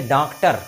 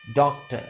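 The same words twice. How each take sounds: First: डॉक्टर with a hard rolled r at the end; wrong rolled r. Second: डॉक्टर with the final r muted, doktə; silent r. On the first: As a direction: roll the final r in डॉक्टर on purpose. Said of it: "कैसा अजीब सा लगेगा". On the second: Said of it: "थोड़ा सा silent करेंगे". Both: Shown as a demonstration.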